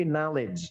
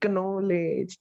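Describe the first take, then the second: First: "knowledge" as "NOL-ij", silent K; correct knowledge. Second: "knowledge" as "kuh-no-ledge"; slow "knowledge" with the K sounded; wrong knowledge. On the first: Teacher correcting, knowledge as "NOL-ij". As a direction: start "knowledge" on the N. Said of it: "tapi knowledge". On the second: Teacher warning against the mistake, knowledge as "kuh-no-ledge". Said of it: "Ya, jangan knowledge". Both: Shown as a demonstration.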